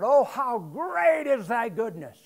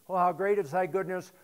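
First: It is read in a lively, expressive way. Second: It is read in a flat, monotone way. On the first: The speaker calls it right. "But I want you to think about it" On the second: The speaker calls it wrong. "you can read this like this"

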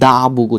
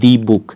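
First: 'The' is said with a short 'thuh' vowel. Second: 'The' is said with a long 'thee' vowel. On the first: The speaker calls it right. "তার আগে হচ্ছে দা বুক উচ্চারণ করবেন" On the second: The speaker calls it wrong. "Not দি book"

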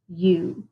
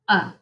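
First: The vowel is a long sound. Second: The vowel is a short sound. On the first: "our vowels can also make a long sound" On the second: "Let's do the short vowel sounds first"

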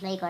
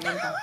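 First: The name ends in a reduced 'er' vowel. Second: The name ends in a clear open 'a' vowel. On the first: The speaker calls it wrong. "nicht Lenker" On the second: The speaker calls it right. "Lenka, genau"

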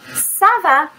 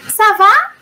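First: The voice falls at the end like an answer. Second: The voice rises at the end like a question.

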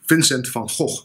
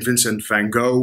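First: The name has a Dutch pronunciation. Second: The name has an English-style pronunciation. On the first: "the Dutch pronunciation is" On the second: "I know many people are used to saying"

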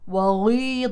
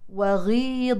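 First: The gh sound is made very heavy. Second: The gh sound is made light. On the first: The speaker calls it wrong. "رفعت مرتبة تفخيم الغين المكسورة لمرتبة أعلى" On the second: The speaker calls it right. "المفروض أنها غي غي وغيضا"

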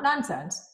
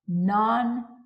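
First: The stress is on the first syllable. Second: The stress is on the second syllable. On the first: Something is absurd. The speaker calls it wrong. "Not nonsense" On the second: Something is not based on the five senses. The speaker calls it right. "but nonsense. Sense. In other words, it's not predicated upon your five senses"

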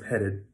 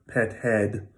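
First: The second vowel is short and reduced. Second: The second vowel is full and clear. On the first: The speaker calls it right. "It's always petted" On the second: The speaker calls it wrong. "It's never pet head"

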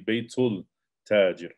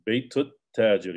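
First: The l is pronounced before the t. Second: The l is assimilated into a doubled t. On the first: The speaker calls it wrong. "You don't say baytul tajir" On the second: The speaker calls it right. "you say wa baytut tajir"

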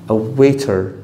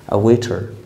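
Both takes have the same delivery.

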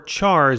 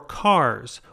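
First: It begins with a ch sound, like chart. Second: It begins with a k sound, like car. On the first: It is said the way it is spelled. "or chars if you prefer to say it that way" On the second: It is said like the start of the word character. "I don't mean car as in Toyota"

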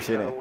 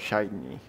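First: The word is said with a Spanish pronunciation. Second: The word is said with an English pronunciation. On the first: "de por sí suele decir Shiny" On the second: "A veces me posee el espíritu inglés y digo Shiny"

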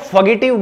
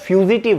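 First: The first syllable is a short 'fa' sound. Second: The first syllable is a long 'fyoo' sound. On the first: The speaker calls it wrong. "काफी सारे लोग इसको फगेटिव बोलते हैं" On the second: The speaker calls it right. "लेकिन ये फ्यूजिटिव है"

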